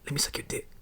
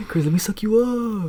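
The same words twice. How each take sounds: First: Very soft, voiceless whisper; imitated whisper. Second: High, slow, drawn-out imitation; mock pleading crackhead. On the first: Imitating the crackhead at his job, creepy whisper. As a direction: whisper it like a secret proposition. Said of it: "He, like, whispered". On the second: Imitating the crackhead at his job, hammed-up pleading. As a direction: stretch the plea out high and hammy. Replays the coworker's proposition, exaggerated.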